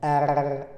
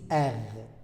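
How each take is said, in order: First: The R is said with a Marseille accent. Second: The R is said with a Parisian accent.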